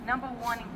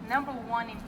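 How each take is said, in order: Both takes have the same delivery.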